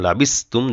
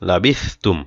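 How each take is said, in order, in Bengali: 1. মাঝের ব্যঞ্জনটি সাধারণ 's' উচ্চারণ। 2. মাঝের ব্যঞ্জনটি জিভ-চাপা 'th' উচ্চারণ। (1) "লাবিসতুম যেন না হয়ে যায়, সিন যেন না হয়" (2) "সা জিব্বার আগা দিয়ে বলবেন"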